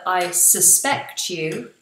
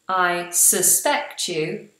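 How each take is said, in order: Both takes have the same delivery.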